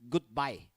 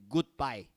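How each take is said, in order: The two takes are said the same way.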